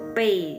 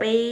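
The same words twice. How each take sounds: First: The syllable is said with a falling tone. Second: The syllable is said with a high level tone. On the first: It means to learn by heart. "dalam nada keempat" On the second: It means to carry on the back. "bukan pei nada satu"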